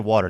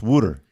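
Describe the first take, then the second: First: It is said with a standard American pronunciation. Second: It is said with a Philadelphia 'wooder' pronunciation. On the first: "they don't say water" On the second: "It's Wooder"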